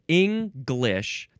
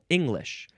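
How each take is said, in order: First: A G sound is heard after the ng. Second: No G sound is heard after the ng. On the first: "That's one pronunciation" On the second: "the other pronunciation has no G sound at all"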